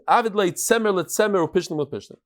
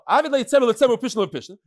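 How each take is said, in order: First: It is read slowly, phrase by phrase. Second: It is read quickly, in one run.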